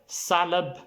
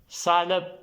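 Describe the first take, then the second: No difference in how they are said.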